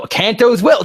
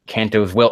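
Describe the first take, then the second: First: Much higher, louder yell on Kanto's Will; screaming the name in disbelief; frustrated shout. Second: Said in the usual way. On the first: Real, not acted. Yells the repeated phrase back.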